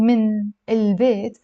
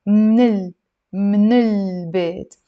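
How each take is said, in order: First: من البيت said in full as "min el-beit"; two separate words. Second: من البيت merged into "mnil-beit", first vowel dropped; run together. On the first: Teacher showing the form to replace, separate full words. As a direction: keep من and البيت apart, both vowels sounded. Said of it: "instead of saying". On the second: Teacher showing students the linked dialect form, run together. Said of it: "as if you're saying". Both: Shown as a demonstration.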